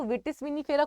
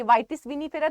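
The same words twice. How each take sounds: First: "vitis vinifera" with a short first vowel, VIT-is; imitated mispronunciation. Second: "vitis vinifera" with first syllable as "vy", like "vie"; correct pronunciation demo. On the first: Teacher imitating students' misreading, "vitis vinifera" said VIT-is. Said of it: "तो vitis vinifera कोई पढ़ता है". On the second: Shown as a demonstration. Teacher showing students the name, "vitis vinifera" said VY-tis. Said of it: "कोई पढ़ता है".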